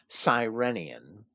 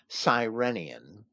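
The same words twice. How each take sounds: First: The word is given an English pronunciation. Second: The same.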